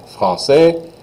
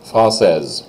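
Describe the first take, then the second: First: High, rising français, S unsaid; silent S. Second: Falling française, ending in Z. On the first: Teacher repeats the boy form after explaining, S silent. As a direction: lift français and drop the final S. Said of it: "don't say that S at all". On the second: Teacher repeats the girl form after explaining, S as Z. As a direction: close française on a buzzed Z. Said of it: "I say the S like a Z sound". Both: Shown as a demonstration.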